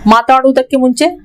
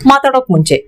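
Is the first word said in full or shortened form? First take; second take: full; shortened. First: The first word is said in its full form. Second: The first word is said in shortened form. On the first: This is the formal, written way of saying it. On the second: This is the everyday spoken way of saying it.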